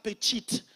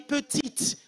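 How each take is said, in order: First: It is said with a slangy street accent. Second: It is said with a standard French accent. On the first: The speaker calls it wrong. "on ne dit pas petite" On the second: The speaker calls it right. "On dit petite"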